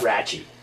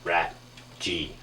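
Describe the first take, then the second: First: The name is said as one word ending 'chee'. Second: The name ends with the letter name 'jee'. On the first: The speaker calls it wrong. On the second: The speaker calls it right.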